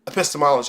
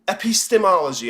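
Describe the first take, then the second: First: The word is said smoothly at normal speed. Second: The word is said slowly, syllable by syllable. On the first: "is how it's usually said" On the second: "I'm saying it like that so you can kind of hear how the word breaks down"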